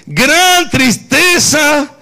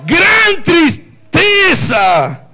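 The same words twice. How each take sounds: First: "Gran" alto y lento; gran tristeza, recalcado. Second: "Gran" alargado y alto, muy lento; gran tristeza, enfatizado. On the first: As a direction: marca "Gran" otra vez. ("Gran" subrayado despacio) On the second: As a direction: estira "Gran" con fuerza. ("Gran" arrastrado y en voz alta) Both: Shown as a demonstration. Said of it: "Tristeza solamente".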